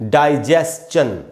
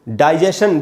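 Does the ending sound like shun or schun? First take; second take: schun; shun. First: The ending is schun, with an s-ch sound. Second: The ending is shun, with no ch sound. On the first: The speaker calls it right. "इसको पढ़ेंगे डाइजेस्चन" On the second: The speaker calls it wrong. "डाइजेशन एकदम गलत उच्चारण है"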